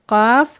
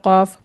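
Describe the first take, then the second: First: It starts with a plain, light k sound. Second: It starts with a thick k from the throat. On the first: The speaker calls it wrong. "इसको लोग पढ़ते हैं काफ। काफ नहीं कहना है" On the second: The speaker calls it right. "मोटा करके पढ़ना है और ये हलक की तरफ से निकलेगा"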